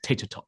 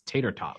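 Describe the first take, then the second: First: The T sounds are crisp and fully released. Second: The T sounds are softened in the middle. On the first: "whereas in my accent it's just tater tot" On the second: "in an American accent, ... the T is softened"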